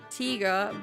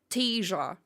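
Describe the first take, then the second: First: It is said in a standard German accent. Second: It is said in a soft Saxon accent. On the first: "So it is not tiger" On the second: "in Saxony, some people are literally saying tiger"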